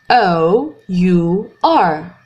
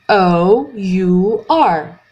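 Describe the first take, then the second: Both takes have the same delivery.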